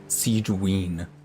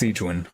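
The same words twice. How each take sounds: First: The name's ending sounds like 'wiener'. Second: The name's ending does not sound like 'wiener'.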